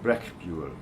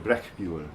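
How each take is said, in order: The two takes are said the same way.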